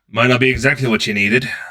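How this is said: It is said in a put-on character voice.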